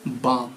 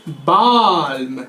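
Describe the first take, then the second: First: बाम with a silent l, just baam; correct pronunciation. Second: बाल्म said slowly with the l sounded; wrong pronunciation. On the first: Teacher giving students the right बाम. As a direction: say बाम short with no l at all. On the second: Teacher showing students the wrong बाल्म. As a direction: drag out बाल्म, voicing the l, as the mistake. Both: Shown as a demonstration. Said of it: "नहीं, इसको पढ़ते हैं बाम".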